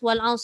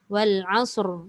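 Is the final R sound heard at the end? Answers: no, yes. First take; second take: no; yes. First: The final R sound is dropped entirely. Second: The final R sound is clearly pronounced. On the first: The meaning 'by time' is lost. The speaker calls it wrong. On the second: The meaning 'by time' comes through. The speaker calls it right.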